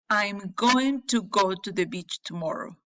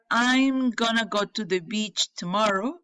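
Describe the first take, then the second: First: 'Going to' is said in full. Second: 'Going to' is reduced to 'gonna'.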